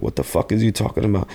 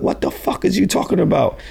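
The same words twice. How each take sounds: First: Said in the usual way. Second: High, alarmed disbelief; shocked disbelief. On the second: Retold or imitated. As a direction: yelp it in alarm. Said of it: "I'm like".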